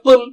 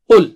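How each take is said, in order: First: The vowel is said without rounded lips. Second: The vowel is said with rounded lips. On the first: The speaker calls it wrong. "Don't say pull" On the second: The speaker calls it right. "your lips round"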